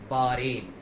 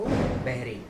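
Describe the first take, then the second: First: The middle is said without an h sound. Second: The middle is said with an h sound. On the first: The speaker calls it right. "सही pronunciation है इसका बारेन।" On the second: The speaker calls it wrong. "जो कि पूरी तरीके से गलत है"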